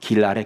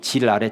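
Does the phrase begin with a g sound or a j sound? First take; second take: g sound; j sound. First: The phrase begins with a g sound. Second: The phrase begins with a j sound. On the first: This is the standard form of the phrase. "지랄은 길 아래라고 하는 뜻입니다" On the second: This is the dialect form of the phrase. "기역이 지읒으로 바뀌었죠"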